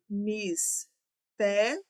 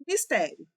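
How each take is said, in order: First: Mistério stretched slowly, syllable by syllable; drawn out slowly. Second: Said in the usual way. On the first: Shown as a demonstration. Teacher to class, stretching mistério slowly to split syllables. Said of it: "teacher stretches word to split it".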